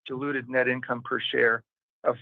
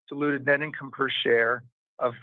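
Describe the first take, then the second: No difference in how they are said.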